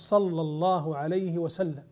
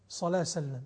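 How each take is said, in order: First: The phrase is said slowly with every word. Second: The phrase is rushed and clipped short. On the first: The speaker calls it right. "يا أخي قف، قل" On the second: The speaker calls it wrong. "ما هذه السرعة وما هذا الاختزال؟"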